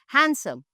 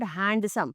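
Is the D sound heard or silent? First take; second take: silent; heard. First: The D sound is silent. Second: The D sound is pronounced. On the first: The speaker calls it right. "the words in which the D is silent" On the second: The speaker calls it wrong. "not handsome"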